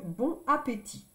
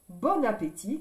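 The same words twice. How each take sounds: First: The n sound does not link into appétit. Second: The n sound links into appétit. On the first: The speaker calls it wrong. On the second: The speaker calls it right. "On fait la liaison, C'est plus joli de dire"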